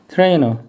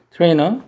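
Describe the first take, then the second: First: 트레이너 said the Korean loanword way, falling; teacher gives the everyday Korean 트레이너. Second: 트레이너 with English "trainer" sound, rising end; teacher corrects 트레이너 to the English sound. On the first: Teacher says the loanword to students, plainly. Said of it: "우리말로 트레이너야". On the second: Teacher corrects the pronunciation for students, rising. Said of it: "내가 아니라". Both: Shown as a demonstration.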